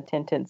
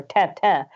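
First: Said in the usual way. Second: Tintin said the French way, nasal vowels like "tan-tan"; French pronunciation. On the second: Shown as a demonstration. Co-host showing off how French people say it, French accent on Tintin. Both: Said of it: "as we French people say".

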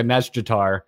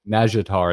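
First: Najdatar said quickly with the J sounded; fast Naga pronunciation. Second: Najdatar said the lazy way, J dropped to zh; own simpler pronunciation. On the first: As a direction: rattle off Najdatar, J squeezed in fast. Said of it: "so they do say". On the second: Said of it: "So I just say". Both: Shown as a demonstration.

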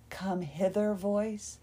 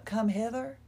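First: Slow, mildly sultry lure; come-hither voice. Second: Said in the usual way. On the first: Shown as a demonstration. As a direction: draw it out invitingly, half in jest.

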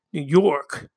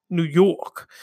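First: Lightly put-on New York accent; "New York" said like a local. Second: Hammed-up New York accent. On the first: Host naming the accent, light New York accent. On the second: Host repeating it in a mock New York accent. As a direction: lean into "New York" like a local. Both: Shown as a demonstration. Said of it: "like I'm from, like, New York".

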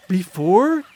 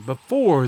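First: "before" echoed as a startled question, rising; "before" lifted into a disbelieving question. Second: "before" leaned on and drawn out; emphasize the word "before"; stress on "before". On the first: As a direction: throw "before" back as a question, louder. She echoes the word in alarm. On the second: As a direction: put the weight on "before". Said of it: "he emphasized the word before". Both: A narrator's reading.

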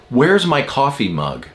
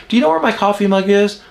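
First: Mildly demanding husband; retold curt demand. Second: High, quick, easygoing question; nice and kind. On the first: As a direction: ask it as a blunt, accusing demand. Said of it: "he said it like that". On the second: Shown as a demonstration. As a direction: ask lightly, as if it's no big deal. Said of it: "I need to be nice and I need to be kind".

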